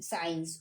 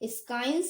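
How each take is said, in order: First: The word starts with a plain s sound. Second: The word starts with an s-k sound. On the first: The speaker calls it right. "ये है silent साइंस" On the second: The speaker calls it wrong. "इसे हम लोग स्काइंस नहीं पढ़ेंगे"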